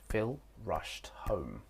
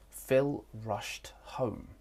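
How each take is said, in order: First: The sentence is said at a faster pace. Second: The sentence is said at a slower pace.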